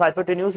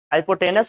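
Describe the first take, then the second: First: हाइपोटेन्यूज with a drawn -न्यूज ending; alternate pronunciation. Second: हाइपोटेनस said the short way, ending in -नस; hypotenuse pronunciation. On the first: Teacher tells class some say हाइपोटेन्यूज, lightly softer. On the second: Teacher gives students the spelling he prefers, हाइपोटेनस clearly. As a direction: say हाइपोटेनस with a plain -नस ending, no -न्यूज. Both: Shown as a demonstration. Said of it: "कुछ लोग हाइपोटेन्यूज बोलते हैं".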